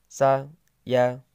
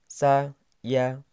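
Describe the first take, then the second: No difference in how they are said.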